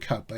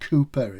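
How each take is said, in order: First: The first syllable sounds like cow. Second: The first syllable sounds like coo. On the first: It follows the spelling of the name. "I call him Cowper" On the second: It is how the name is really said. "is the real pronunciation"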